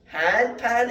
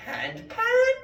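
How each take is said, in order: First: High loud questioning hand pan; mocking question. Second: Squeaky very high question; baffling question. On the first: Philosopher confusing Spanish bakers, high loud question. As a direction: wind them up with a question. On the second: Retold or imitated. Philosopher to Spanish bakers, very high squeaky question. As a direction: play the confused trickster. Philosopher confusing bread makers.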